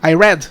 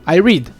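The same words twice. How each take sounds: First: The vowel is short, like in 'red'. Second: The vowel is long, like in 'reed'. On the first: The reading happened in the past. "Se você falar eu li" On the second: The reading happens now or habitually. "Se você falar eu leio"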